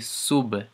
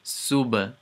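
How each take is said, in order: First: The final b is released with a bounce. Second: The same.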